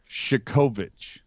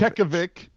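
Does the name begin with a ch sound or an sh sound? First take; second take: sh; ch. First: The name begins with a soft sh sound. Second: The name begins with a hard ch sound. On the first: The speaker calls it right. "it's Shikovich" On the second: The speaker calls it wrong. "It's not that. It's not a ch"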